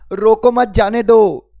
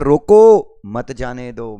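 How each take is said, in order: First: The pause comes after 'मत'. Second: The pause comes after 'रोको'.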